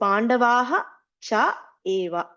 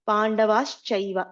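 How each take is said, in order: First: The words are said separately, unjoined. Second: The words are joined, with sounds merged.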